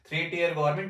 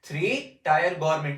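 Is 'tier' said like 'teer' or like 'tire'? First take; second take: teer; tire. First: Tier is said with an 'ee' vowel, like teer. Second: Tier is said with an 'eye' vowel, like tire.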